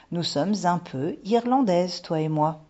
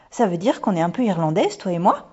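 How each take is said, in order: First: Reassuring confirmation. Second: Put-on louder little-girl question, rising at the end; excited question. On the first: Mother confirms Irish roots to daughter, reassuring. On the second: Daughter asks mother if they are Irish, excited. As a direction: ask it with eager wonder, lifting on the last word. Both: A narrator's reading.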